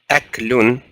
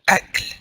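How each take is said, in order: First: The word ends with an added un sound. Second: The word ends on the consonant, with no vowel. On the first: The full grammatical ending is spoken. "there's supposed to be a dhamma here on the lam" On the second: The word is said at a pause, where speakers do not end on a vowel. "we didn't pronounce that dhamma on the lam"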